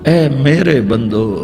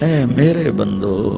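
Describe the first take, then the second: The two takes are said the same way.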